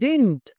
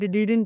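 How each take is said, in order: First: The second d sound is dropped entirely. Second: The second d sound is clearly pronounced. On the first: "మొదటి డి పలుకుతున్నారు తర్వాత డి పలకట్లేదు" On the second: "అందరూ కూడా డిడింట్ డిడింట్ డిడింట్ అంటారు"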